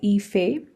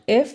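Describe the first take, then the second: First: It is said as a two-syllable name. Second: It sounds like the one-syllable word 'if'. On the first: The speaker calls it right. "it's called Ife. That's how you pronounce this" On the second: The speaker calls it wrong. "It's not if"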